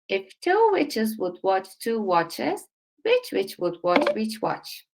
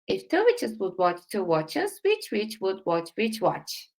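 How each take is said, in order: First: It is spoken at a slow pace. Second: It is spoken at a fast pace. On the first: "one time slowly" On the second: "Let me go faster"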